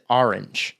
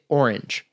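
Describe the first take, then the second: First: The word is said with two full syllables. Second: The word is squeezed into almost one syllable. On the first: This is how someone else said it. "who was from New Jersey who said" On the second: This is how the speaker used to say it. "almost one syllable"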